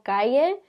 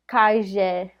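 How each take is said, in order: First: The double L is said as a Y sound. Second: The double L is not said as Y.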